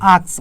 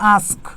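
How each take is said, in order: First: The word ends with an s sound. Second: The word ends with a k sound. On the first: The speaker calls it wrong. "উচ্চারণটা কি আক্স না" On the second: The speaker calls it right. "উচ্চারণটা তো হচ্ছে আস্ক"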